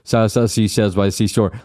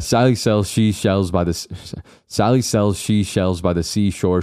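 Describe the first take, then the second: First: It is fast, with s in place of sh. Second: It is careful, with a clear sh sound. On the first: The speaker calls it wrong. "when I do it fast, it's like ... it's just the s sound rather than the shh sound" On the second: The speaker calls it right. "and so I can say it right"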